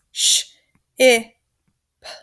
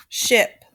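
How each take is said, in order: First: SH, I, P as separate sounds, pauses between; sounded out. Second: Said in the usual way. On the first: Shown as a demonstration. Teacher showing students how ship is built, sounded out. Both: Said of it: "the word ship looks like this".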